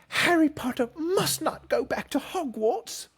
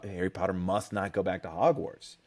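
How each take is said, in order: First: It is said in a put-on character voice. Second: It is said in a normal speaking voice. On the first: The speaker calls it right. "Was that good?" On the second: The speaker calls it wrong. "you said it wrong"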